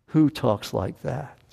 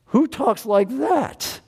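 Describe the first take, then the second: First: Said in the usual way. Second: Amazed. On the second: Real, not acted.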